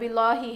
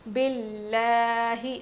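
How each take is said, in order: First: The L sound is heavy and full. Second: The L sound is thin and light. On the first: The speaker calls it wrong. "ये ना बिल्लाही है" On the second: The speaker calls it right. "लाम को बारीक पढ़ेंगे"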